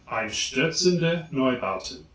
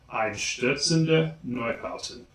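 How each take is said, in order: No difference in how they are said.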